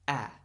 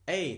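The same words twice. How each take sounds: First: The vowel is short, as in apple. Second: The vowel is long, rhyming with day. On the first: "a short vowel sound is a sound like A" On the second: "that's a long sound"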